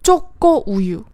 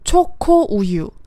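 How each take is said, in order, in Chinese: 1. 这些辅音是紧音且不送气。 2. 这些辅音是气声且送气的。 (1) "把两个送气音都给浊化成了紧音" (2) "正确的说法呢是"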